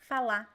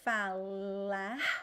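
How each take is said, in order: First: The final R sound is dropped entirely. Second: The final R sound is clearly pronounced. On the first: "people just drop it. So you don't hear anything" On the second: "I just have this R coming out of my mouth"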